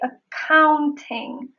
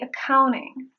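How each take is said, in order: First: The T after the N is pronounced. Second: The T after the N is silent. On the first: "I can say accounting" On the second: "but I say accounting"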